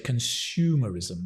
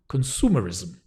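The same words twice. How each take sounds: First: It is said with a British accent. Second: It is said with an American accent. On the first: "But in British English, we say consumerism. There's a shoe" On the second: "In America, they go ... It's a s"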